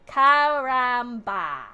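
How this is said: It is said with a flat English accent. "That's the whitest way to say it"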